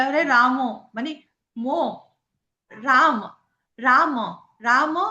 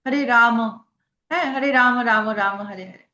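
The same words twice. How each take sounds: First: রাম said short and clipped South Indian style; South Indian pronunciation. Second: রাম said as Bengali ramo; Bengali pronunciation. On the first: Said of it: "south Indian ওরা বলে". (দক্ষিণ ভারতীয় উচ্চারণে রাম) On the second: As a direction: chant হরে রাম with Bengali o ending. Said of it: "আমরা বাঙালিরা". (বাঙালি উচ্চারণে রাম) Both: Shown as a demonstration.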